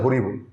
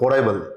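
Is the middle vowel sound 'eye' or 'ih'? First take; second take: ih; eye. First: The middle vowel sounds like 'ih'. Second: The middle vowel sounds like 'eye'. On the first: The speaker calls it wrong. "আমি এটাকে পড়েছিলাম হরিবল" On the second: The speaker calls it right. "শব্দটা ছিল হরাইবল"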